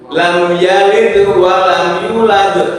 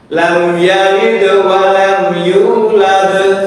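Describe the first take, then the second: First: The vowel in "yu" is held short. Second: The vowel in "yu" is held long. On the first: The speaker calls it wrong. "Yu-nya tidak dipanjangkan" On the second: The speaker calls it right. "Yu panjangnya dua harokat"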